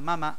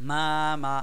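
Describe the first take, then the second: First: The two syllables are said quickly together. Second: The two syllables are said slowly and separately. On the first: The speaker calls it right. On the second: The speaker calls it wrong.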